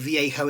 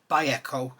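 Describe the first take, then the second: First: The name begins with a V sound. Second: The name begins with a B sound. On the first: This is the speaker's habitual way of saying it. The speaker calls it wrong. "I call it Viejo" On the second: This is the Spanish way of saying it. The speaker calls it right. "according to Fox, Vallejo, because the Spanish don't say V, they say B"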